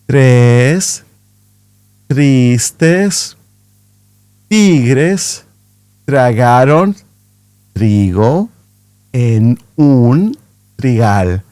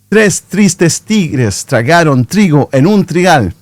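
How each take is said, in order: First: The sentence is spoken at a slow pace. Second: The sentence is spoken at a fast pace. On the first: "Again, but slower" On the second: "a little bit faster"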